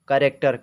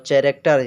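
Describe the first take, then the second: First: The word begins with a 'k' sound. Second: The word begins with a 'ch' sound. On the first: The speaker calls it right. "एच जो है ये silent रहता है" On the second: The speaker calls it wrong. "बहुत लोग चैरेक्टर पढ़ते हैं"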